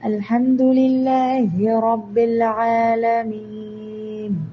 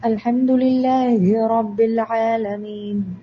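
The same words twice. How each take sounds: First: The final long vowel is held for four counts. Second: The final long vowel is held for two counts. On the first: "ഇനി നാല് കൗണ്ട് ആണെങ്കിൽ" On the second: "രണ്ട് കൗണ്ടാണ്"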